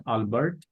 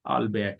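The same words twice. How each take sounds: First: "Albert" said the English way, with the t sounded; English pronunciation. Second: "Albert" said the French way, ending "-bair" with a silent t; French pronunciation. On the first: Presenter showing how not to say the French name, English pronunciation of "Albert". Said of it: "this name is not from English language". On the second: Presenter giving the audience the name's original sound, French pronunciation of "Albert". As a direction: say "Albert" as a French name, dropping the final t. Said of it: "This name is from French language". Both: Shown as a demonstration.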